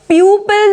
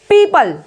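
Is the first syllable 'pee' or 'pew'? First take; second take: pew; pee. First: The first syllable sounds like 'pew'. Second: The first syllable sounds like 'pee'. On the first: The speaker calls it wrong. "प्यूपल नहीं बोला जाएगा" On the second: The speaker calls it right. "It's पीपल"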